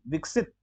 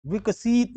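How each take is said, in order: First: विकसित as a quick "viksit"; short i. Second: विकसित as "vikaseet"; wrong long ee. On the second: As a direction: stretch सि in विकसित. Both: Shown as a demonstration. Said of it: "विकसित नहीं".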